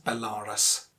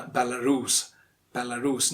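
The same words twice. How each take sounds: First: Belarus as be-LAA-rus; mispronunciation. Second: Belarus as bel-uh-ROOS; standard British pronunciation. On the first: Teacher showing what to avoid, mispronounced Belarus. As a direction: say "Belarus" wrongly with a long middle AA. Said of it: "not Belarus". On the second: Teacher giving the standard form, correct Belarus. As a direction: say "Belarus" with weak middle and long ROOS. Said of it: "the standard British pronunciation". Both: Shown as a demonstration.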